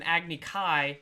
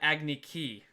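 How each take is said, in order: First: The second word sounds like 'kai'. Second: The second word sounds like 'key'. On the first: This is the original show's name for the duel. The speaker calls it right. "in the anime he had an Agni Kai" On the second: This is the film's name for the duel. The speaker calls it wrong. "in the movie they call it Agni Ki"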